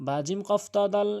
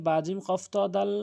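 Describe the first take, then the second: The two takes are said the same way.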